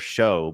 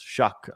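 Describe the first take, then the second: First: The name ends with a vowel sound. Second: The name ends with a k sound. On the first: The speaker calls it wrong. "or show" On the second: The speaker calls it right. "but it's shuck apparently"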